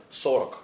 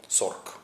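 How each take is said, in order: First: Сорок loud with both syllables sounded; full form. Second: Сорок said as сорк, second vowel dropped; clipped form. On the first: Teacher setting the full word against the clipped one. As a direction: say сорок fully with its second vowel. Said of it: "goes shortened to". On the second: Teacher showing the vowel lost in fast speech. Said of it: "no vowel over there". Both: Shown as a demonstration.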